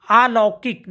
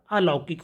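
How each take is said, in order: First: अलौकिक begun with a stretched "aa"; wrong long first vowel. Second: Said in the usual way. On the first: Shown as a demonstration. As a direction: say अलौकिक as "aalaukik". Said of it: "नहीं होता". (अलौकिक का अ लंबा करके) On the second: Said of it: "होता है".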